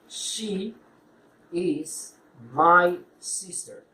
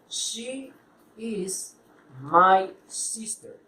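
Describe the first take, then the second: Both takes have the same delivery.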